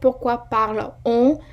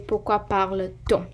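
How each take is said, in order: First: The two vowels meet with no linking t sound. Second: A linking t sound joins the two vowels. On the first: The speaker calls it wrong. "it's not a good um, pronunciation" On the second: The speaker calls it right. "You always say"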